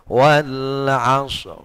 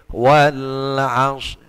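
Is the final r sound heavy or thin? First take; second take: heavy; thin. First: The final r is pronounced heavy. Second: The final r is pronounced thin. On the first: The speaker calls it right. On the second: The speaker calls it wrong. "tidak boleh ... Itu tipis"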